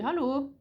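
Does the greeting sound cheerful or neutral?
neutral. It is said in a flat, neutral way. The speaker is in an average mood. "d'humeur moyenne, je dis allô, genre neutre quoi"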